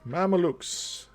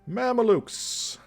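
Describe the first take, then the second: First: The name is said with three syllables. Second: The name is said with three syllables.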